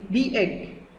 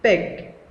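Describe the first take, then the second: First: The word is split into two syllables. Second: The word is said as one syllable. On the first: The speaker calls it wrong. "We can't say the egg, no" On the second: The speaker calls it right. "it's for one time"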